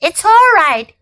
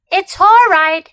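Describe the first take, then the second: First: Nervous self-reassurance. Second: Anxious, higher and louder; scared boy calming himself; nervous self-reassurance. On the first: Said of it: "he kept saying to himself". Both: A narrator's reading.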